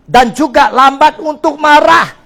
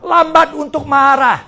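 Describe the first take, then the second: First: "marah" held long and falling, loud and slow; slow to anger stressed. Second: "lambat" punched high and loud, slow; stressed lambat. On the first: Pastor driving home the verse, "marah" loud and drawn out. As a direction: lean hard on "marah". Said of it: "lambat untuk berkata-kata". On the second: Pastor repeating the verse, "lambat" stressed loud. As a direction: hit "lambat" first. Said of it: "Jangan cepat marah". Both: Shown as a demonstration.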